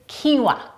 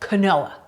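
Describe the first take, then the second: First: The word is pronounced unlike its spelling. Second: The word is pronounced the way it is spelled. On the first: The speaker calls it right. "the correct pronunciation is quinoa" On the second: The speaker calls it wrong. "the spelling would lead you to believe that that might be the way to say it"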